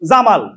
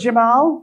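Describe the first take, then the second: First: Both syllables are even, in a Bengali accent. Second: The first syllable is short and the second long. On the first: "আপনার নাম যদি হয় জামাল" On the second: "হবে জেমাল, দেখবেন যাটা ছোট মালটা বড়"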